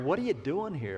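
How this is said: It sounds surprised, like an unexpected visitor.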